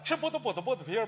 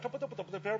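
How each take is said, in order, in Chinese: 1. 这段绕口令说得慢一些。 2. 这段绕口令说得快一些。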